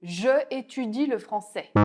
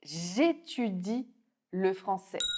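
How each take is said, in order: First: The vowel of 'je' is kept before 'étudie'. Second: The vowel of 'je' is dropped before 'étudie'. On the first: The speaker calls it wrong. "Sans l'élision, ton français sonne mécanique" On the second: The speaker calls it right. "Avec l'élision, il devient plus naturel"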